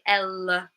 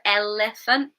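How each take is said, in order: First: The middle syllable has a reduced schwa vowel. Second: The middle syllable has a full vowel. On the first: "we say elephant" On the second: "Instead of elephant"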